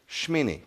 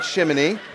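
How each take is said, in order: First: No vowel is sounded between 'sh' and 'm'. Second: A vowel is sounded between 'sh' and 'm'. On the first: The speaker calls it right. "It's Shmini. ... The E is silent" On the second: The speaker calls it wrong. "It's not Shiminy"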